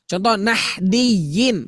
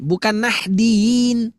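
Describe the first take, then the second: First: Slow nahdiyin with a full doubled y; correct nahdiyin. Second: Nahdiyin shortened toward nahdin, slow; wrong nahdiyin. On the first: Teacher models the right nahdiyin. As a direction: say nahdiyin carefully and slowly. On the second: Teacher shows the wrong nahdiyin. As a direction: nahdiyin with the y swallowed. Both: Shown as a demonstration.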